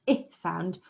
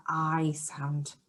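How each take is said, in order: First: Short "I" as in ink; short I sound. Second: Long "I" as in ice; letter "I" as the long vowel that starts iron; long I sound. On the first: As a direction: say "I" as ih, the first sound of igloo. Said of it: "some that start with our I sound". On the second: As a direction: say "I" like eye, drawn out. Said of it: "with our I sound". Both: Shown as a demonstration.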